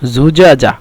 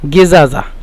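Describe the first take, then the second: First: It is said in Standard Arabic. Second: It is said in Egyptian Arabic. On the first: "মূলত শব্দটি হলো জুজাজা" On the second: "মিশরের আঞ্চলিক ভাষায়"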